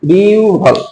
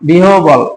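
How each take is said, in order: First: The middle is pronounced as 'u' plus 'bh'. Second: The middle is pronounced as 'h' plus 'b'. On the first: The speaker calls it right. "উচ্চারণ হলো বিউভল" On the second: The speaker calls it wrong. "বিহবলটা হবে না"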